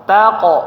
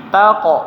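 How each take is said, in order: The two takes are said the same way.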